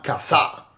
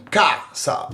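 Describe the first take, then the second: First: Casa stressed on the last syllable, ca-SA; wrong final stress. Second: Casa stressed on the first syllable, CA-sa. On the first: Teacher showing the wrong stress, casa as ca-SA. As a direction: push the stress onto the SA of casa. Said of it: "It's not casa". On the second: Teacher showing where the stress falls, casa as CA-sa. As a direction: lean on the CA of casa. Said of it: "where is the stress on that word". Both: Shown as a demonstration.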